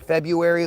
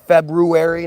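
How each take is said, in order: First: The first r is dropped. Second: The first r is clearly sounded. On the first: The speaker calls it wrong. "not February, like everybody says" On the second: The speaker calls it right. "It's February, ... Look at how it's spelled"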